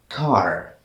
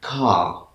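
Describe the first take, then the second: First: "car" with the final R clearly sounded; American-style "car", R fully voiced. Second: "car" with the final R swallowed; British-style "car", ending on an open vowel with no R. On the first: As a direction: say "car" slowly, pronouncing every letter including the R. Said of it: "clearly and simply, which means all the letters are pronounced". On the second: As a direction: say "car" the British way, dropping the R at the end. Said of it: "They pronounce it like this". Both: Shown as a demonstration.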